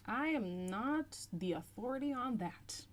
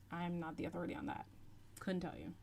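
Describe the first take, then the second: First: "I am not the authority on that" slowly, starting high; emphatic disclaimer. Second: Fast, soft throwaway disclaimer. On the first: Answering a viewer's question, "I am not the authority on that" drawn out emphatically. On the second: Answering a viewer's question, quick soft throwaway. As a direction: rattle it off softly, letting it drop. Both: Real, not acted.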